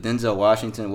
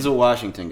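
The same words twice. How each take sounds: First: "Denzel" with a full, stressed "ZEL"; "Denzel" rhyming its end with "bell"; mispronounced Denzel. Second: "Denzel" as DEN-zul, announced firmly; "Denzel" with a swallowed second vowel; correct Denzel pronunciation. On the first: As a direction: say "Denzel" as den-ZELL, second syllable clear. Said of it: "I said his name wrong". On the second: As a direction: stress DEN in "Denzel", short "zul" ending. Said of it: "if you didn't know". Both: Shown as a demonstration.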